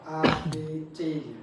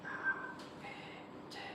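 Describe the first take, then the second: First: The letters are said in a loud voice. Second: The letters are whispered without voice. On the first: Through a consolidated lung the whisper sounds loud. "terdengar seperti suara yang lantang" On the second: The patient whispers the letters. "tapi dia sambil berbisik"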